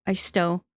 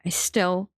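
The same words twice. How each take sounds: The two takes are said the same way.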